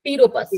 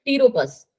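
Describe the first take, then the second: First: टीरोपस, no p, quick recap; silent p again. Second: टीरोपस with the p left silent. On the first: Teacher quizzes students on the silent p. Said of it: "flying fox को हम क्या कहते हैं". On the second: Teacher shows students the silent p. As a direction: say टीरोपस as tee-ro-pus, no p sound. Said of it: "पी होता है, वो silent होता है". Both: Shown as a demonstration.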